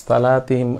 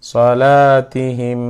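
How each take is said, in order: First: সালাতিহিম with a long first vowel, said plainly; wrong সালাতিহিম, long first vowel; wrong pronunciation demo. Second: Slow, loud সলাতিহিম with short vowels; slow, loud সলাতিহিম chant; correct recitation. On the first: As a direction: show the mistake, stretching সা. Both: Shown as a demonstration. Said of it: "সালা বলবো না".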